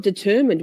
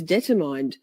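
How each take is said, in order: First: Determined said "de-TER-mind"; correct determined. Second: Determined said "DETTER-mined"; mispronounced determined. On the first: Confessing a reading mistake, determined as "de-TER-mind". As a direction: stress the middle of determined, short last syllable. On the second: Confessing a reading mistake, determined as "DETTER-mined". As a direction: end determined like the word mined. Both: Shown as a demonstration. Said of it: "I thought determined was determined".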